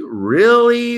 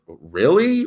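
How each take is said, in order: First: "Really?" pitched much higher and louder; incredulous. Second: Said in the usual way. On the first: Retold or imitated. Reacting to the crash headline, higher and louder in disbelief. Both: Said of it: "I was like".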